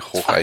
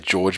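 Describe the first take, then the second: First: The name sounds Spanish, like hor-hay. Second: The name sounds like the English name George. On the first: The speaker calls it right. "it's clearly Jorge" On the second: The speaker calls it wrong. "People say George"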